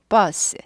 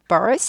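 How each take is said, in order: First: The vowel is plain with no r-color. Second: The vowel is curled with an r-like color. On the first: The speaker calls it right. "R이 없을 때에는 구부리지 않는다" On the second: The speaker calls it wrong. "아니고"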